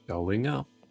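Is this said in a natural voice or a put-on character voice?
natural. It is said in the speaker's ordinary voice.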